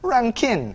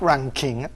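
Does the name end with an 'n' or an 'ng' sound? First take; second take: n; ng. First: The name ends with a plain 'n' sound. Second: The name ends with an 'ng' sound. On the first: The speaker calls it right. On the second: The speaker calls it wrong. "not Ranking"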